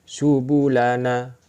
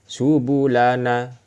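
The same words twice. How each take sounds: Both takes have the same delivery.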